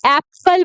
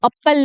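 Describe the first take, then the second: First: एप्पल with a wide 'ae' as in "cat"; correct pronunciation. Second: एप्पल said as 'up-pal' with a short 'uh'; wrong pronunciation. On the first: Teacher tells learners how it is said, correct pronunciation. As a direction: open the first vowel of एप्पल to 'aep-pal'. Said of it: "इसको एप्पल बोलते हैं". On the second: Teacher shows how not to say it, wrong pronunciation. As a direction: start एप्पल like the word "up". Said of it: "इसको एप्पल नहीं बोलते". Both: Shown as a demonstration.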